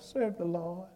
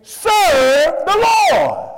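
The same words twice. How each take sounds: First: The phrase is said softly, without a raised voice. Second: The phrase is said loudly, with a raised voice. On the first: "he didn't just go" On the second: "Joshua raised his voice when he said"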